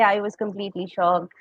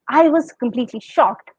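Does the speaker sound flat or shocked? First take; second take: flat; shocked. First: It sounds flat, without a high pitch on shocked. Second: It sounds shocked, with a high pitch on shocked. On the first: The shock does not come across. The speaker calls it wrong. "you cannot say I was completely shocked. If you say like that, it is not conveying the meaning" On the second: The speaker really feels the shock. The speaker calls it right. "you have to express that shock with your voice"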